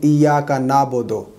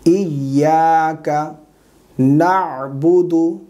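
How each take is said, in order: First: Quick "इय्याका नाबुदु" without the ayn; unchanted Urdu-style "इय्याका नाबुदु"; common mistake. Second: Slow chanted "इय्याका नअबुदु" with the ayn; correct recitation. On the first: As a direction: say "नाबुदु" as plain "naabodo". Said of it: "बाद लोग गलती करते हैं". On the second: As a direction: sound the throat consonant in "नअबुदु". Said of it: "ये गलत है". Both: Shown as a demonstration.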